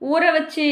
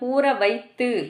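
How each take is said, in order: First: The second word is reduced to vachu. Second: The second word is said in full, vaiththu. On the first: The speaker calls it wrong. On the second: The speaker calls it right.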